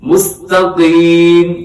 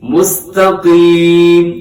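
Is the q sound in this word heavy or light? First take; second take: heavy; heavy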